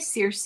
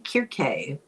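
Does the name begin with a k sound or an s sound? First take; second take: s sound; k sound. First: The name begins with a soft s sound. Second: The name begins with a hard k sound. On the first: The speaker calls it wrong. "I don't think it's really a correct pronunciation" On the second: The speaker calls it right. "it should be Kirke"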